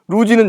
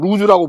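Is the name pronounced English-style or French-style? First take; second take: English; French. First: It is said the English way, ending 'roo-ji'. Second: It is said the French way, ending 'roo-zeu'. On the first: "영어식 발음이고" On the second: "프랑스에서는 루즈라고 부른다고"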